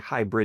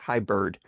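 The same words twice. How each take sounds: First: The word ends with the sound 'brid'. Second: The word ends with the sound 'bird'. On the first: The speaker calls it wrong. "So it's not really hybrid" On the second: The speaker calls it right. "It's hybrid. I think"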